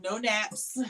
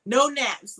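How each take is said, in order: First: Said in the usual way. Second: Emphatic no. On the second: Retold or imitated. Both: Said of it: "Look, she said".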